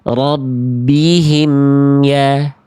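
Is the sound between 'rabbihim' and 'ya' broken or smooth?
smooth. The m is carried smoothly into ya. The speaker calls it right. "Emnya antar sampai ke huruf ya-nya"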